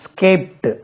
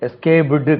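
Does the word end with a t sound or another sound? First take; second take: t sound; other sound. First: The word ends with a t sound. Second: The word does not end with a t sound. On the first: The speaker calls it right. "இது இட்டு இட்டுன்னு தான் சொல்லணும்" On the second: The speaker calls it wrong. "escaped கிடையாது"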